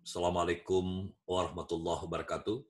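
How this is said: It sounds formal and measured, like an official address. It opens a formal speech. "Pidato beda lagi"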